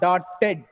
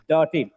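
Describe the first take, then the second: First: The T sound is doubled and held long. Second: The T sound is single and short. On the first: The speaker calls it wrong. "Not dotted" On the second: The speaker calls it right. "Though it has double T, the sound is single"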